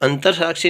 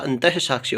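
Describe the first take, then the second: First: The first word ends with an r sound. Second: The first word ends with a breathy h sound. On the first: The speaker calls it wrong. "नहीं होता" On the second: The speaker calls it right. "होता है"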